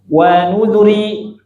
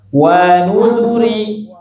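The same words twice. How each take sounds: First: The syllable zu is clipped too short. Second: The first syllable wa is held too long. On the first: "Zu-nya kenapa? Kependekan, terlalu cepat" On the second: "Kenapa wawunya keliru, Bu? Kepanjangan"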